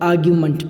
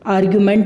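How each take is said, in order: First: The ending is said with a short 'uh' vowel. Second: The ending is said with a full 'e' vowel. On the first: The speaker calls it right. "आर्ग्यूमेंट पढ़ेंगे" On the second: The speaker calls it wrong. "आर्ग्यूमेंट नहीं पढ़ेंगे इसको"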